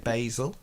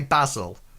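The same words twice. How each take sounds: First: It is said the American way. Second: It is said the British way.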